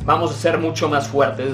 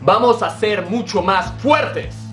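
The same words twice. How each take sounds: First: It is said plainly, with little energy. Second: It is said forcefully, with strong energy. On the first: The speaker calls it wrong. "No es lo mismo que te diga" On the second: The speaker calls it right. "El tono de voz, el lenguaje fisiológico, la contundencia"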